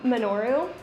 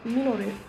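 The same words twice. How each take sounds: First: The name is said with an American English accent. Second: The name is said with a Japanese-style pronunciation. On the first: "like just in an English accent, or not English, American English accent" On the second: "They're like, it's Minoru"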